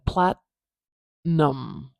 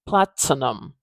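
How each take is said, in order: First: The T is held back without a burst. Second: The T is released with a strong burst. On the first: The speaker calls it right. "I am saying a T sound there, but I'm not exploding it" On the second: The speaker calls it wrong. "I'm not exploding it out of my mouth. I'm not saying platinum"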